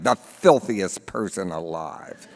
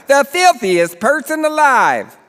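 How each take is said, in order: First: Said in the usual way. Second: Put-on "the filthiest person alive" announced high in a Baltimore accent; thick Baltimore accent. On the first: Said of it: "The headline reads". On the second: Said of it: "He has a thick Baltimore accent".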